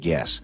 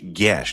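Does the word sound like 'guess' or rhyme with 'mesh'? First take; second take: guess; mesh. First: The word sounds like guess. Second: The word rhymes with mesh. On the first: The speaker calls it wrong. "not guess" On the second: The speaker calls it right. "Gesh rhymes with mesh"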